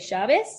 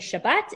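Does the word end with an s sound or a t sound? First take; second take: s sound; t sound. First: The word ends with an s sound. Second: The word ends with a t sound.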